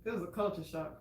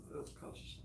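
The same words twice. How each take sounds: First: Said in the usual way. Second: Whispered, half to herself; repeating the culture shock in a whisper; whispered aside. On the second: Real, not acted. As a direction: breathe it out under the breath. Repeated under her breath.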